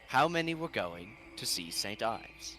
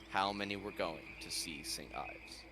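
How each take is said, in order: First: It is spoken in a put-on accent. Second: It is spoken in a plain voice. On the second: "I'll say it without the accent this time"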